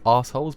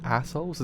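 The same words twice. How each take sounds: First: "assholes" said the British way, with a long "ah"; British-accented "assholes", long first vowel. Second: Said in the usual way. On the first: Shown as a demonstration. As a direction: open "assholes" into British "ahs-holes". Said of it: "how you say it in the British accent". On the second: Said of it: "sometimes I say assholes because".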